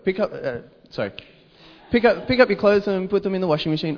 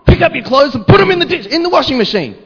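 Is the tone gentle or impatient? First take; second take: gentle; impatient. First: It is said in a gentle, polite tone. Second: It is said in an impatient, annoyed tone. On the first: It is a friendly request. "Hey, can you please" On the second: It is an exasperated demand. "Come on"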